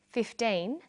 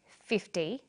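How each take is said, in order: First: Put-on FIFTEEN with a long teen and clear final N; minimal-pair demo. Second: FIFTY with a short, light -ty; minimal-pair demo. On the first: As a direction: say FIFTEEN carefully, holding the teen. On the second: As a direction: say FIFTY carefully, first syllable strong. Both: Shown as a demonstration. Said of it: "Listen to these pairs of numbers".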